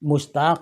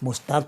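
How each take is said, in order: First: It ends with a deep uvular q sound. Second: It ends with a plain k sound. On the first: The speaker calls it right. "तो हम आज से अपना नाम मुश्ताक ही लेंगे" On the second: The speaker calls it wrong. "मुश्ताक तो कोई लफ्ज़ नहीं है"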